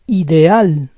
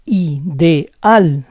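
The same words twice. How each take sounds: First: Said in the usual way. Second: Ideal split as i-de-AL; syllable by syllable. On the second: Shown as a demonstration. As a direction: say Ideal in parts, stressing AL. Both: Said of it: "try to understand the rules".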